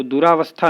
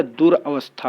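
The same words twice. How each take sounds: First: दुरावस्था with long aa, 'du-raa-vastha'; wrong form. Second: दुरावस्था said 'dur-avastha', short a; corrected form. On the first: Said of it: "नहीं होता है". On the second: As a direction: split दुरावस्था as dur plus avastha, without long raa. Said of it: "होता है". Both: Shown as a demonstration.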